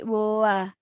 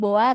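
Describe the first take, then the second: First: A short drawn-out gap separates the vowels. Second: The two vowels run straight together. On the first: The speaker calls it right. "agak ada space gitu ... agak panjang" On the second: The speaker calls it wrong. "Nggak langsung boa"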